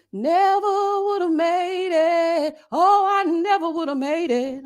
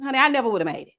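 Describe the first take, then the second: First: Slow, high sung gospel phrase; sung gospel line. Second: Said in the usual way. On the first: Acted. Reviewer singing gospel about surviving the interview, slow and high. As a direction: sing it out like church, slow and high.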